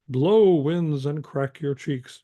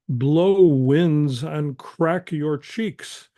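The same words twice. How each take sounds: First: The line is recited evenly without strong force. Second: The hard consonants are hit with strong force. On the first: "or you can just do" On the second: "you can emphasize the crack your cheeks"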